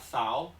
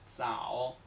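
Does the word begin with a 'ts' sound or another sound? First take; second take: another sound; ts. First: The first sound is not a 'ts' sound. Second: The first sound is a 'ts' sound. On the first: The speaker calls it wrong. "No se pronuncia zao, no" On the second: The speaker calls it right. "Se pronuncia como ts o ds"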